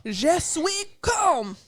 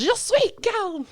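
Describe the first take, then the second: First: High, slow, self-consciously bad French; bad French attempt. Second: High, slow, exaggerated French accent; mock French. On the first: Shown as a demonstration. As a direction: try the French and butcher it. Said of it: "I'm bad at it. Here I go". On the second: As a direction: drawl it like a bad French actress. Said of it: "And then she says".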